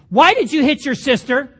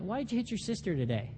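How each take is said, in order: First: It is asked in an angry, heated tone. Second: It is asked in a calm, gentle tone.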